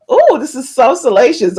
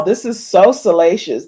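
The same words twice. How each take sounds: First: A hint of prim, proper lady; lightly proper, savouring the scandal; mock proper. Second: Said in the usual way. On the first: Shown as a demonstration. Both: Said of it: "this is why I get all proper".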